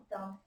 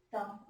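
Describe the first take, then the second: No difference in how they are said.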